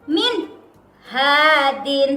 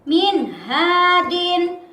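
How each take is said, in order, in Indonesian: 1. Kedua kata itu dipisah dengan jeda singkat. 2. Kedua kata itu disambung tanpa jeda. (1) "tidak boleh sakta" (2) "harus dibaca jelas"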